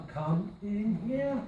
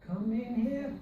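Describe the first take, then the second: First: Slow, drawn out "come in here"; slow tune check. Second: "here" lifted at the end; rising test. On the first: Teacher slowly testing the tune of the phrase. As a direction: stretch it out to hear the tune. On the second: Teacher testing a rise on the phrase. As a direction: try it with "here" going up. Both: Shown as a demonstration. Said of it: "I don't think it really does go up".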